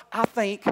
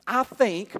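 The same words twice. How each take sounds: The two takes are said the same way.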